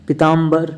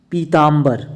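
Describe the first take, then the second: First: पीताम्बर with a short first i. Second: पीताम्बर with a long first ee. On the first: Teacher showing the error, short i in पीताम्बर. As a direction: say पीताम्बर as "pitambar". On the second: Teacher correcting students, long ee in पीताम्बर. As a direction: stretch पीताम्बर into "peetambar". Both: Shown as a demonstration. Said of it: "बड़ी की मात्रा लग जाती है".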